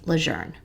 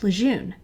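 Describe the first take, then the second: First: The name is said with an R-like sound. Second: The name is said without an R-like sound. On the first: This is how the family says the name. "It is pronounced as if it has an R in it" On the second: This is the common local way of saying it. "have always pronounced it"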